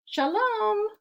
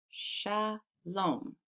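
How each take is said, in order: First: Very high, drawn-out hello; calling a greeting. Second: "Shalom" split as sha, pause, lom; softer, two slow beats on "Shalom"; syllable by syllable. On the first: A narrator's reading. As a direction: sing out a storybook greeting. Voices story characters greeting someone. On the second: Shown as a demonstration. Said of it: "Can you clap shalom".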